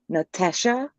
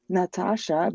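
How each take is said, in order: First: An Australian accent, one A sounds like E. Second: A standard accent with plain A vowels throughout. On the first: The speaker calls it wrong. "pronounced with the Australian accent... one of the A's is pronounced as an E" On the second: The speaker calls it right. "no, it's Natasha"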